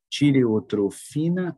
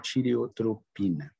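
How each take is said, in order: First: The consonant before the final syllables is f. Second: The consonant before the final syllables is p. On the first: "tireotrofina com F" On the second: "tireotropina com P"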